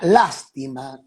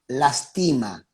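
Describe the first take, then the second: First: The stress is on the first syllable. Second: The stress is on the second syllable. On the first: It means pity. "con acento en la primera A" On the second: It means it hurts. "sin acento"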